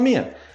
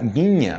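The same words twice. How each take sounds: First: The 'nh' sound is reduced in fast speech. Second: The 'nh' sound is clearly pronounced. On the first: "como você fala rápido, você fala minha" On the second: "Existe minha, N H"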